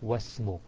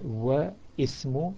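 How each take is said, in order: First: The vowel is dropped, joining wa to smu. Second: The vowel starting ismu is pronounced separately. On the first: "wa ismu becomes wasmu" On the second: "if there is a word before it, then you drop Hamzatul Wasl"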